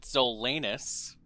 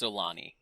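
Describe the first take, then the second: First: The name ends with an 'us' sound. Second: The name ends with an 'ee' sound. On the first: The speaker calls it wrong. "some pronounce it" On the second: The speaker calls it right. "but actually, it's pronounced"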